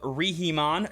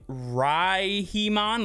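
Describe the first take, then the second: First: The first syllable does not sound like 'rye'. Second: The first syllable sounds like 'rye'.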